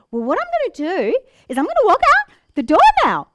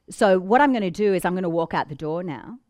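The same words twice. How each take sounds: First: "Well, what I'm gonna do is I'm gonna walk out the door now" high and loud, rising up at the end like a question; exaggerated uptalk on "now". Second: "So what I'm gonna do is I'm gonna walk out the door now" with a firm falling end. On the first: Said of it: "I'm exaggerating it". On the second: Showing high status, firm fall at the end. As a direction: drop the pitch on "now". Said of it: "high status drop at the end of the sentence". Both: Shown as a demonstration.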